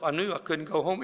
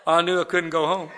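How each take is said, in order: First: Said in the usual way. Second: Louder, punching "I knew I couldn't go home"; emphatic repeat. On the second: Shown as a demonstration. Repeating the point to the audience, louder and emphatic. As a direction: hammer the repeat home for the laugh. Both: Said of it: "Even in a blackout".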